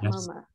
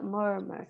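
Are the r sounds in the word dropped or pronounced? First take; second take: dropped; pronounced. First: The r sounds are dropped. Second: The r sounds are pronounced. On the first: The speaker calls it wrong. "but it's not murmur" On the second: The speaker calls it right. "They have murmur. An R in it"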